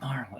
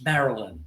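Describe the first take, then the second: First: The name is said with two syllables. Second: The name is said with three syllables. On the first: The speaker calls it wrong. "it's not Marlon" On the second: The speaker calls it right. "it's Marilyn. There's a Y in there"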